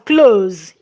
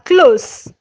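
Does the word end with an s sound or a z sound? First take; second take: z sound; s sound. First: The word ends with a buzzing z sound. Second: The word ends with a soft s sound. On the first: It means to shut. "when it is pronounced as close, it's a what? A verb" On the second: It means near. "this one is pronounced as close, no more z. The difference is s and z. Functioning as an adverb"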